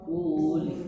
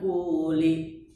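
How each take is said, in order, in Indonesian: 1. Vokal akhir hanya samar-samar terdengar. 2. Vokal akhir bersuara penuh dan jelas.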